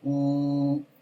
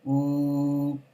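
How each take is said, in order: Both takes have the same delivery.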